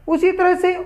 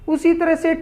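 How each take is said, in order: No difference in how they are said.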